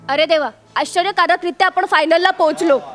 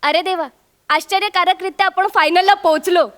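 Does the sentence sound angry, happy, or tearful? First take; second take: angry; happy. First: It is said in an angry tone. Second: It is said in a happy, joyful tone. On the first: The speaker is furious about reaching the final. "हे वाक्य रागात बोल" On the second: The speaker is overjoyed at reaching the final. "माझी खुशी जाणवते"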